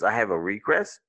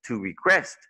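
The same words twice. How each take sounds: First: "request" stressed on RE, as a noun; first-syllable stress. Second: "request" stressed on QUEST, as a verb; light RE, punch QUEST in "request"; second-syllable stress. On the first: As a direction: hit RE in "request", lighter QUEST. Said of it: "Remember earlier it was a request". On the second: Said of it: "on the second". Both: Shown as a demonstration.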